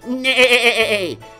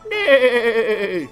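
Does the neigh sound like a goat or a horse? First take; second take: goat; horse. First: The neigh sounds like a goat bleating. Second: The neigh sounds like a horse whinnying.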